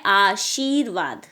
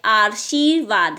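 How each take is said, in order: First: "आशीर्वाद" as aa-sheer-vaad, r before v; correct r placement. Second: "आशीर्वाद" slowly as aar-sheer-vaad; misplaced r. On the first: Teacher correcting pupils, "आशीर्वाद" as aa-sheer-vaad. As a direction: keep the r of "आशीर्वाद" after the long shee. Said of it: "जबकि होता है". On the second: Teacher showing the mistake, "आशीर्वाद" with misplaced r. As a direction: put an extra r before the श of "आशीर्वाद". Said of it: "र जो है श के ऊपर नहीं". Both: Shown as a demonstration.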